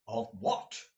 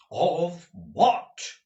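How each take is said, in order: First: Restrained, insistent question; demanding. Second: Higher, urgent, agitated question; eager demand, voice leaping up; crying out. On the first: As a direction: ask it curtly, without raising the voice. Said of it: "demanded Ralph". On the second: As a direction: cry it out as it suddenly dawns on you. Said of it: "cried Ralph". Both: A narrator's reading.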